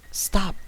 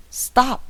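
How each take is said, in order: First: Sharp, louder stop; sudden, harsh order to the driver. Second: Much higher and louder stop; insist, shouting it out; shouted repeated order to the driver. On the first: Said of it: "sudden and harsh". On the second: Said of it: "my wife repeated". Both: Acted.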